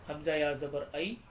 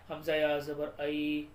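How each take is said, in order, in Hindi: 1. आख़िरी स्वर छोटा और जल्दी से बोला जाता है। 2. आख़िरी स्वर खींचकर बोला जाता है। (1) "सही इस तरीके से है" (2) "अगर हमने थोड़ा सा भी खींच दिया तो गलत हो जाएगा"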